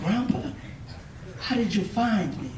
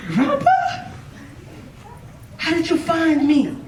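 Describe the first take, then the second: First: Quiet, subdued disbelief; acted shock, hushed and trailing softer; understated shock. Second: High-pitched incredulous squeak on Grandpa; hammed-up astonishment, voice jumping up high; acted shock. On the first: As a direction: ask it softly, mildly stunned. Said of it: "This young man was shocked". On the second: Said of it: "He was shocked".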